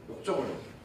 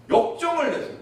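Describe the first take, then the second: First: 역정을 dropped low and soft; soft low echo of 역정을; quiet repeat. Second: 역정을 punched high and loud; 역정을 said with a loud high fall; first take hits 역정을 hard; stressed 역정을. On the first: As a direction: echo 역정을 under the breath. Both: Shown as a demonstration.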